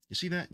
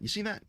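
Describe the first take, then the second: First: Higher, startled question; surprised high. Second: Very high, rising question; even higher rising. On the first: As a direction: point it out in surprise. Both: Real, not acted.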